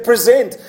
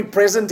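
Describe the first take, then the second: First: "Present" said pre-ZENT, stress on the second syllable; verb pronunciation. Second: "present" said PREZ-ent, like the gift; noun pronunciation. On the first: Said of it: "We change the emph-, emphasis on the pronunciation". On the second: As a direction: stress the first syllable of "present", short e. Says gift word as verb. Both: Shown as a demonstration.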